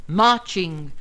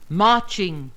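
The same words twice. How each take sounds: The two takes are said the same way.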